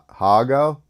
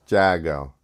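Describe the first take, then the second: First: The name begins with an H sound. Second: The name begins with a J sound.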